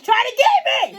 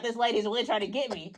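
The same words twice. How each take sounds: First: Much higher, slow squeaky mock fear; mock panic squeak. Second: Softer aside; a hushed realization under the breath; quiet dread. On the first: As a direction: squeal it in pretend terror. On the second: Retold or imitated. Realizing the customer's cough is aimed.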